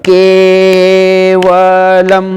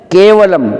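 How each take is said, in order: First: केवलम chanted very slowly, के held for two beats; slow monotone chant of Kavalam with a long के. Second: Said in the usual way. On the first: Shown as a demonstration. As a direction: stretch the के of Kavalam on a level note. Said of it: "time proper to time देना चाहिए". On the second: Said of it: "है तो के बोल दिया हमने".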